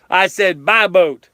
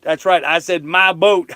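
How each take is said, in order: First: "my" punched, slow and louder; slow it down and hit "my" hard; stress on MY. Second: "boat" leaned on, slowed down; stress on boat. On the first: Repeating it to the chat, hitting "my" hard. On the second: To the chat, insisting on his boat, stressing "boat". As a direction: land on the word "boat". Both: Shown as a demonstration.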